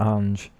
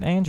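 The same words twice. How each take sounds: First: "Ange" said the second of two possible ways; alternative pronunciation of Ange. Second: "Ange" said the first of two possible ways; first pronunciation of Ange. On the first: Streamer asking a viewer their name, alternative "Ange". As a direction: offer "Ange" as the other candidate pronunciation. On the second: Streamer asking a viewer their name, trying "Ange". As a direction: offer "Ange" as one candidate pronunciation. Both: Shown as a demonstration. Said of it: "is it Ange or Ange".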